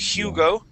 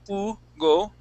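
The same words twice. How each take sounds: First: The initial H is pronounced. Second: The initial H is silent. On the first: The speaker calls it wrong. "We wouldn't say" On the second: The speaker calls it right. "We would say Hugo"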